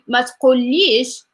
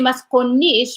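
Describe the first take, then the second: First: The word is said with an L sound. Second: The word is said with an N sound. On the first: This is how it is said outside the north. "instead of saying masculi masculish" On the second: This is how it is said in the north. "they say masconish because they pronouncing the L as N"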